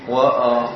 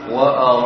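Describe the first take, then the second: No difference in how they are said.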